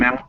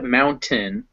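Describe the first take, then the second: First: The T becomes a glottal stop before the N. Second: The T is fully pronounced before the N. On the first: "Your throat still clenches up" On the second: "So instead of mountain"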